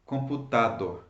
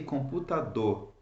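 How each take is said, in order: First: The stress is on the second-to-last syllable. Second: The stress is on the last syllable. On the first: The speaker calls it wrong. "and not computador, right? Why don't I stress the second last syllable?" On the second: The speaker calls it right. "Why do I say computador"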